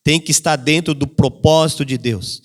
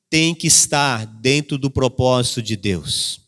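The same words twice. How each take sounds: First: "propósito" lifted and leaned on; stress on propósito. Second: Slow and lower, weighing each word; slow, dropped voice on "tem que estar dentro do propósito de Deus"; slow soft emphasis. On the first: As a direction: hit the word "propósito" as the point. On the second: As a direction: let the phrase sink in slowly. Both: Shown as a demonstration.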